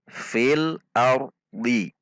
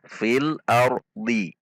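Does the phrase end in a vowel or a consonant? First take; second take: vowel; vowel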